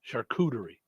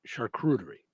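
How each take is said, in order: First: The word is said without an added R sound. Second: The word is said with an added R sound. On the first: The speaker calls it right. "I'm gonna say it right from now on" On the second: The speaker calls it wrong.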